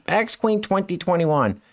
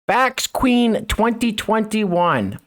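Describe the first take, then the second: First: Said in the usual way. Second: Slow, grand mocking read of a title. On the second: Commentator reading a woman's sash aloud, slow mocking read-out. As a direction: read it out drawn-out and higher, mockingly.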